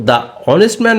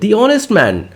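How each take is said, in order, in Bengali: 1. আর্টিকেলটি ছোট 'uh' স্বরধ্বনি দিয়ে উচ্চারিত হয়। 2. আর্টিকেলটি 'ee' স্বরধ্বনি দিয়ে উচ্চারিত হয়। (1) "দা অনেস্ট ম্যান না বলে" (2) "বলবো দি অনেস্ট ম্যান"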